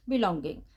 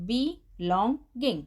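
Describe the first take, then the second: First: Said in the usual way. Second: "belonging" split slowly into be, long, ging; broken into syllables. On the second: Shown as a demonstration. Teacher helping a child read a hard word, "belonging" broken syllable by syllable. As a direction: say "belonging" in three separate, drawn-out chunks. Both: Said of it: "आप उसे break कर लीजिए".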